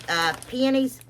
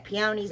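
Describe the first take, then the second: First: Peonies said PEE-en-eez; her own pronunciation. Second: Peonies said PEE-oh-neez; the other pronunciation. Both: Shown as a demonstration. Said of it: "or however y'all say it".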